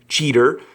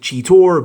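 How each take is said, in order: First: The name ends in a plain 'er' sound. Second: The name ends in a rounded 'or' sound. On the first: This is how the show says the name. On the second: This follows the O in the written name.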